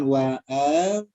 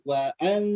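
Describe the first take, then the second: First: The vowel before the n is stretched long. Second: The vowel is short, moving straight to the n. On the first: The speaker calls it wrong. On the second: The speaker calls it right. "harus wa'al. Jadi langsung ke nunnya"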